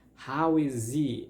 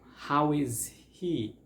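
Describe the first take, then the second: First: The H sound in 'he' is dropped. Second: The H sound in 'he' is pronounced. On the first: "eliminating the H sound is gonna sound like" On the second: "So the phrases are"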